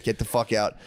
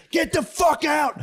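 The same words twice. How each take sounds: First: Said in the usual way. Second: Slow, high shouted version of Get the fuck out; high shrieking falsetto. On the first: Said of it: "I was like". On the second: Retold or imitated. Comedian spazzing at the tongue-flicking fan. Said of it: "I spazzed".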